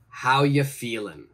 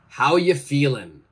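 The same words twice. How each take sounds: First: The word are is dropped in relaxed speech. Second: The word are is dropped in relaxed speech.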